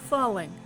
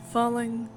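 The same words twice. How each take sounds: The two takes are said the same way.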